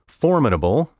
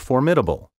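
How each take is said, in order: First: The stress is on the traditional syllable. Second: The stress is shifted to another syllable. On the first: The speaker calls it right. "my first pronunciation of each word was the proper one" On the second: The speaker calls it wrong. "so many speakers now misplace the accent"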